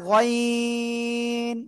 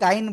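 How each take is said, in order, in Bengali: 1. স্বরটি লম্বা টানা। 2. স্বরটি ছোট, টানা নয়। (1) "এটা গইন। তিন আলিফ টান হবে" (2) "অনেকে কিন্তু গাইন বলেন"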